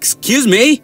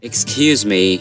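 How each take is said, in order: First: It is said in an offended, indignant tone. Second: It is said in a soft, apologetic tone. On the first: The speaker objects to what was said. "এসব কি বলেন?" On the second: The speaker is asking for pardon. "মাফ করবেন"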